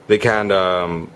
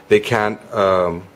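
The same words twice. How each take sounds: The two takes are said the same way.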